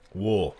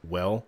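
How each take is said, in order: First: The vowel is rounded, sounding like 'wool'. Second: The vowel is open and unrounded, like 'well'. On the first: This is the local Western Canadian way. "wool instead of well" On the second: This is the standard way. "instead of well"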